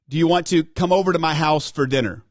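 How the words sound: The words 'come over to my house for dinner' are emphasized. It slips in a hidden command. "Come over to my house for dinner is the embedded command"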